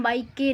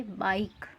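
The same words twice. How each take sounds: First: बाइक के with a sounded final "e", bai-kay; wrong reading. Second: Said in the usual way. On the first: Shown as a demonstration. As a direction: say बाइक के as two beats, voicing the silent e. (बाइक के, आख़िरी ई को "के" बोलकर) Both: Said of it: "इसको हम बाइक के नहीं पढ़ेंगे".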